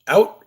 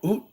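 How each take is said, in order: First: The vowel sounds like 'ow'. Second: The vowel sounds like 'oo'. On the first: "You don't say out" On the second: "that's how you guys pronounce it in Canada, right? ... you say oot"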